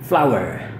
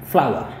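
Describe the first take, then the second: First: It is said with an American accent. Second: It is said with a British accent. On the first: "Tapi bisa juga Amerika" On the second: "Ini adalah British"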